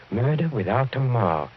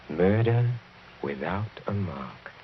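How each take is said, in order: First: Said in the usual way. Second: A soft, gloating murmur; hushed menace. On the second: Acted. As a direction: drop it low and quiet, savoring each word. Villain repeats it, relishing.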